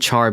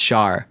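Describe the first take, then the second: First: The name starts with a 'ch' sound. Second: The name starts with a different sound. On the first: The speaker calls it wrong. "I always call him Char because it's a, a C H" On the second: The speaker calls it right. "but it's Char"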